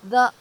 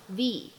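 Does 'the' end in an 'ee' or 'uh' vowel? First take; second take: uh; ee. First: The vowel is a short, weak 'uh'. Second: The vowel is a long 'ee'. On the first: The speaker calls it wrong. "前面的定冠词我们不能读成the" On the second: The speaker calls it right. "而应该读成the"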